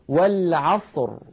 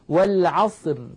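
First: The final r is pronounced heavy and full. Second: The final r is pronounced light and thin. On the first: The speaker calls it right. "إذن نفخمها، بل نقول والعصر" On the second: The speaker calls it wrong. "لا نقول والعصر، لا نقول ذلك أبدا"

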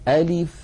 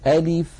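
No difference in how they are said.

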